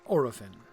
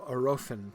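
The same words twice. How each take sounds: First: The stress is not on the middle syllable. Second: The stress is on the middle syllable. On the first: The speaker calls it wrong. "not Orofin" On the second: The speaker calls it right. "normally the stress lies on this, on this the second to last syllable"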